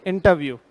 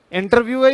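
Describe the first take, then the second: First: इंटरव्यू said "in-ta-view", no R; silent R. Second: इंटरव्यू said "in-tar-view", R pronounced; sounded R. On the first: Teacher gives students the answer, इंटरव्यू with silent R. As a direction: skip the R in इंटरव्यू, falling tune. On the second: Teacher offers students the wrong option, इंटरव्यू with sounded R. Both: Shown as a demonstration. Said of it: "ना कि र नहीं बोल के".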